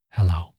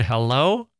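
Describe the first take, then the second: First: Hello dropped low, in an altered voice. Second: Said in the usual way. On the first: Shown as a demonstration. Podcast host showing his greeting, hello said low. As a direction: say hello deep down, like a greeting at a dark door.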